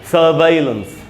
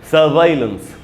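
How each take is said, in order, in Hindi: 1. दूसरा अक्षर 'vai' जैसा सुनाई देता है। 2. दूसरा अक्षर 'vai' जैसा सुनाई देता है।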